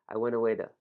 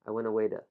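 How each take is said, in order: No difference in how they are said.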